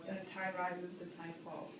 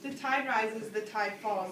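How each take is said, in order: First: Softer, lower closing lines of the poem; fading final refrain. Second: Measured, ringing opening of a poem; poem recitation. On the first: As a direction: let the refrain fade away as it ends. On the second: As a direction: open the refrain clearly, with weight on "tide". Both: Shown as a demonstration. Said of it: "My favorite part of the poem is definitely the first stanza".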